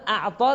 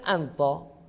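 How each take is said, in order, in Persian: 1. هجای اول صدای عین دارد. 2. هجای اول صدای نون دارد. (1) "مثلا اعطا رو میگن انطا" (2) "حرف عین رو به نون ساکن در کنار حرف تا تبدیل میکنن"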